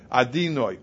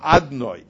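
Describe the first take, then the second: First: An 'i' vowel is heard between d and n. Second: No vowel is heard between d and n. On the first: "say the dalet with a chirik" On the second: "or a shvo"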